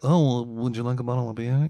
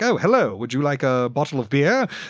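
First: It is delivered in a casual, natural way. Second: It is delivered in a polished, theatrical way.

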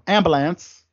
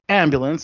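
First: It is said in a Baltimore accent. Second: It is said in a plain accent.

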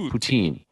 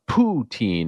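First: The first syllable is short and reduced. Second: The first syllable is a full, emphasized 'poo'. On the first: The speaker calls it right. "It's just poutine. It's almost like patin" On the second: The speaker calls it wrong. "Emphasizing the poo too much in poutine"

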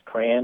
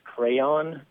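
First: The word is said as one syllable, cran. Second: The word is said as two syllables, cray-on. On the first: "as a kid, I pronounced crayon as if it was spelled C-R-A-N" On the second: "It's a word that I would pronounce crayon"

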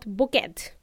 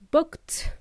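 First: The word is said as two syllables. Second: The word is said as one syllable. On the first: The speaker calls it wrong. "not booked" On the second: The speaker calls it right. "pronounced booked"

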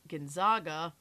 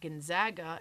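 First: The middle syllable sounds like 'zog'. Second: The middle syllable sounds like 'zag'. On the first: The speaker calls it wrong. "not the Zogs" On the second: The speaker calls it right. "because you call them the Zags"

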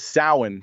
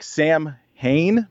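First: It is said as 'Sow-in', with no m sound. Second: It is said as 'Sam-hain', with an m sound. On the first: The speaker calls it right. "but it's Samhain" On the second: The speaker calls it wrong. "it looks like Sam Hain"

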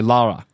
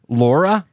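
First: The first vowel is an open 'ah' sound. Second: The first vowel is a clear 'or' sound. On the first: The speaker calls it wrong. "I'll say Lara" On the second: The speaker calls it right. "instead of like Laura"

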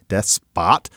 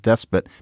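First: The second syllable has a full 'ah' vowel. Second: The second syllable has a weak, reduced vowel. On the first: "becomes despot because of despotic" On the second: "Starts as despot"

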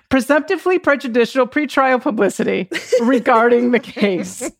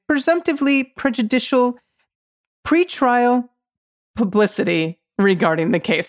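First: The phrase is spoken quickly. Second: The phrase is spoken slowly. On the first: "I'm going to try and say it faster" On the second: "I had to slow down"

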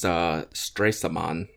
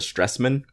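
First: The name is said the German way. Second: The name is said the English way. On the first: The speaker calls it right. "it's Stressman" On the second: The speaker calls it wrong. "I called it the Stressman, which is very wrong"

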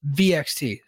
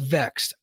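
First: The name is spelled out letter by letter. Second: The name is said as one word. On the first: "you don't get me to pronounce a vowel unless you give me a vowel" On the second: "I know they're called Vexed"

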